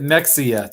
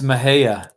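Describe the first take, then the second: First: The name is pronounced following its spelling. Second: The name is pronounced the local way. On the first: This is how an outsider would read it. The speaker calls it wrong. "you would pronounce it Mexia" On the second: This is how locals say it. The speaker calls it right. "but it's Mahia"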